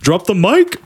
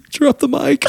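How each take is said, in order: First: It is said firmly, with authority. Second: It is said casually, without authority.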